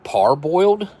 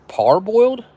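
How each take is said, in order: First: Puzzled rising question. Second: Pitched way up in disbelief; baffled high question. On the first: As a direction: ask it, baffled. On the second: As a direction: squeak out the word, baffled. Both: Real, not acted. Puzzled reading unfamiliar word.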